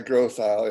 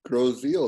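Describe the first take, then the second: First: The name ends with an 'isle' sound. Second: The name ends with an 'eel' sound. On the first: This is how outsiders usually say it. The speaker calls it wrong. "everybody always pronounces it wrong" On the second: This is how the locals say it. The speaker calls it right. "That's how they pronounce it"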